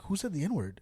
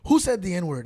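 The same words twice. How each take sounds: First: Said in the usual way. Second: Loud, sharp who; angry demand. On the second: Retold or imitated. Retelling the furious guard, loud demand. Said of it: "He goes".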